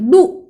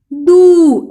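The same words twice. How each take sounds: First: दू cut short; a quick short दू, vowel not held. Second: दू held long and falling; long vowel. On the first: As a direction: say दू with a brief ऊ. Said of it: "ऐसे नहीं करना है". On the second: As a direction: stretch the ऊ in दू right out. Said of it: "ऐसे करना है". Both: Shown as a demonstration.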